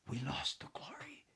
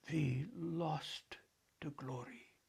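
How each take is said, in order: First: Put-on softer, grave childlike intoning; grave hushed boy's line; utmost gravity. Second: Softer elder echo, leaning on each word; quiet weighty echo; emphatic echo. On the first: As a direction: intone it solemnly, hushed at the end. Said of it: "David intoned with the utmost gravity". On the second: Acted. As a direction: echo the boy to drive it home. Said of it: "the elder echoed for emphasis".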